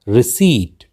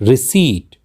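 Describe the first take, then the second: The two takes are said the same way.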